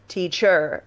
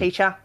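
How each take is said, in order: First: It is said in an American accent. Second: It is said in an Australian accent.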